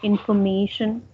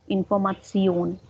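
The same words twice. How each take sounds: First: The ending sounds like 'shun'. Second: The ending sounds like 'tsion'. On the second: "So in German, it's Atsion"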